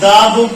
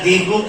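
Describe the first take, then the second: First: The vowel in 'the' is short, like 'thuh'. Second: The vowel in 'the' is long, like 'thee'. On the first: "दा" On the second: "दी"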